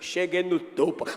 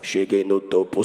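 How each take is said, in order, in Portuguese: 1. É dito com voz de fala normal. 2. É dito com voz grave forçada.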